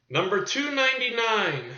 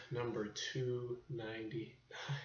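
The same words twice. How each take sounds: First: Higher, projected episode announcement; announcer call. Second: Slow, hushed whisper; whispered echo. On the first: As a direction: call out the number like a host. Announces episode number, then echoes it. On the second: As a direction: echo it back in a drawn-out whisper. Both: Pretend.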